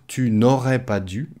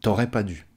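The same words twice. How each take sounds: First: "Tu n'aurais pas dû" with tu and n' sounded; full written form. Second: "T'aurais pas dû" contracted, falling; spoken French. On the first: Teacher shows what not to say orally, fully pronounced. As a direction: articulate every word of "Tu n'aurais pas dû". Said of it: "on ne va pas dire". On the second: Teacher shows the oral version, casual contraction. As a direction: drop the n' and cut tu to t'. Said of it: "on va dire". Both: Shown as a demonstration.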